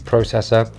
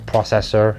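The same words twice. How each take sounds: First: It is said with a British pronunciation. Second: It is said with an American pronunciation.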